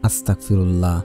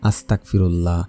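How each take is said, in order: First: The word is pronounced carelessly, with sounds blurred. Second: The same.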